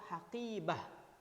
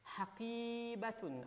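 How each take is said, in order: First: The word ends with a short -ah sound. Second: The word ends with the full -atun ending. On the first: The reader stops on the word. "kalau diwakafkan bisa kita baca haqibah" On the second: The word is read without stopping on it. "bukan haqibatun"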